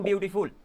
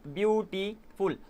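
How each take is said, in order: First: Said in the usual way. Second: beautiful very slowly in three separate pieces, view, टी, फुल; split into syllables. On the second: Shown as a demonstration. Teacher dividing a word for the class, beautiful syllable by syllable. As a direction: break beautiful up with a pause after each syllable. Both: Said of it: "तो इसको टुकड़ों में divide कर सकता हूँ".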